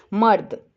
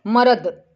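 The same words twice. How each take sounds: First: मर्द as one syllable, र joined to द; correct half R. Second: मर्द broken into म-र-द with full vowels; wrongly split word. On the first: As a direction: say मर्द as "mard". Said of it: "हम इसको बोलेंगे". (मर्द में र आधा बोलें) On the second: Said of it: "इसको हम ऐसे नहीं बोलेंगे". (मर्द को गलत "मरद" की तरह बोलें) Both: Shown as a demonstration.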